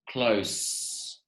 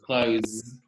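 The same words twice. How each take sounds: First: The word ends with a hissing s sound. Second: The word ends with a buzzing z sound. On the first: It means near or at a short distance. "So that's with the S sound" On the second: It means to shut. "Now with the Z sound"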